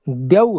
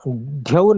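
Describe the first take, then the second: First: The first consonant is plain, an unaspirated d. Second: The first consonant is breathy, an aspirated dh. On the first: The speaker calls it right. "ये द्यऊ है, दकार और यकार का संयोग है" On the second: The speaker calls it wrong. "धकार ध्यऊ नहीं है"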